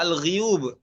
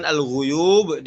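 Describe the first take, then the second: First: AL-GHUYUB said as al-ghiyub; read with kasrah. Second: Said in the usual way. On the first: Shown as a demonstration. Teacher showing the variant reading, ghi in AL-GHUYUB. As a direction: say "al-ghuyub" with i after the gh. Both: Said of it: "dibaca al-ghuyub".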